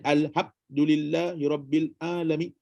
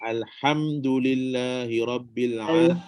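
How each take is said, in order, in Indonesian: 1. Huruf m di alhamdu tidak memiliki dengung sengau. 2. Huruf m di alhamdu memiliki dengung sengau. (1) "Kalau tak ada" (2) "ham tu memang adalah ham"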